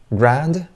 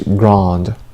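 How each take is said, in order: First: It is said in an American accent. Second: It is said in a British accent. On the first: "U S" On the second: "U K"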